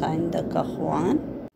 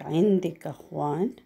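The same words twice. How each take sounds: First: عندك said "indak" with an a, asking a man; عندك as "indak", the a ending for a male; عندك أخوان؟ with "indak", to a man; masculine form. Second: عندك said "indik" with an i, asking a woman; عندك as "indik", the i ending for a female; عندك أخوان؟ with "indik", to a woman; feminine form. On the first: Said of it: "You're asking a male person". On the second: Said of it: "To a female, you ask". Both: Shown as a demonstration.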